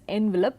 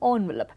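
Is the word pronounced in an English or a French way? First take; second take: English; French. First: The word is said with an English-style first vowel. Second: The word is said with a French-style first vowel. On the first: This is the usual pronunciation today. "now mostly pronounced as envelope" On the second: This was the accepted pronunciation decades ago. "the more accepted pronunciation was envelope"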